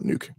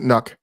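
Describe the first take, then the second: First: The vowel is long, as in 'duke'. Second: The vowel is short, as in 'truck'. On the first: This is what most people say. "but I I still call it Nuke" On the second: This is the technically correct pronunciation. "I think the technically correct pronunciation is Nuck"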